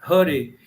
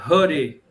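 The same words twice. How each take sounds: First: The first vowel is short and closed. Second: The same.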